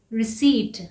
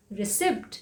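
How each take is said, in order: First: "रिसीट" with silent p, ri-SEET; long "ee" and no p in "रिसीट"; correct pronunciation. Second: "रिसिप्ट" with the p sounded, ri-SIPT; common mispronunciation. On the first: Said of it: "इसे क्या कहते हैं?". ("रिसीट" का सही उच्चारण, बिना प के) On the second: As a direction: pronounce the silent p in "रिसिप्ट". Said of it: "इसे हम अक्सर क्या बोलते हैं?". ("रिसिप्ट" का आम गलत उच्चारण, प के साथ) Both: Shown as a demonstration.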